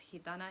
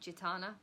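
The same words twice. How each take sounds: First: The name is said with Spanish sounds. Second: The name is said with English sounds. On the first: The speaker calls it right. "but it's Gitana, it's Spanish" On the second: The speaker calls it wrong. "most English people just pronounce it Gitana"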